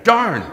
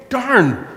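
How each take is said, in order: First: Darn said with a laugh; laughing curse. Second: Mock annoyed curse. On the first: Retold or imitated. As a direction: say "darn" while laughing at yourself. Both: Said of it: "I said again".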